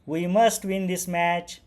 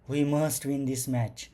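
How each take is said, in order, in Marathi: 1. ही ओळ आनंदी पद्धतीने म्हटली आहे. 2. ही ओळ घाबरलेल्या पद्धतीने म्हटली आहे. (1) "हॅपी आनंदाने" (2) "अफ्रेड होऊन म्हणजे घाबरून"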